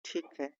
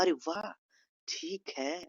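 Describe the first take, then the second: First: Quiet, subdued resignation; hurt. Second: Mildly pleased approval; gentle, demonstrated happiness; happy. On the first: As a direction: agree softly though upset. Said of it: "दुखी रहते हैं किसी से". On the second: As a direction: agree with soft delight. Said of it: "खुशी के लहजे में इसे". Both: Shown as a demonstration.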